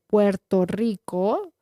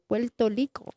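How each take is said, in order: First: The r in the name is rolled. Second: The r in the name sounds like an l. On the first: A Mexican speaker would say it this way. "Instead of rolling the R, doing it like Puerto Rico" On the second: A Puerto Rican speaker would say it this way. "they're like Puerto Rico"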